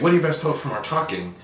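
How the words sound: The question is asked in a confident, assured voice. The asker expects the listener can answer and change will happen. The speaker calls it right. "It sounds like I expect that you have an answer"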